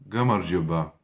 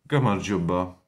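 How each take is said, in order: Both takes have the same delivery.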